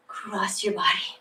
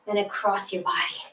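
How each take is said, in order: First: Whispered repeat. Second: Said in the usual way. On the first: Shown as a demonstration. Instructor whispering the cue to the class. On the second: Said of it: "Press up".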